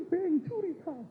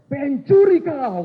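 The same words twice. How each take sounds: First: Lightly voiced higher accusing preacher; retold accusation. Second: Slow, loud, much higher yell of thief; shouted accusation. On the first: Preacher pointing at congregants, mild mock accusation. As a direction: point and accuse, a hint of the shout. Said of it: "Dia tunjuk itu". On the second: Retold or imitated. Batak preacher yells at non-tithers, slow furious shout. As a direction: bellow the accusation at the standing congregation. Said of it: "Langsung dia teriak".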